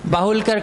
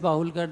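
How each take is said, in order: First: The name carries a strong accent. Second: The name is said without accent.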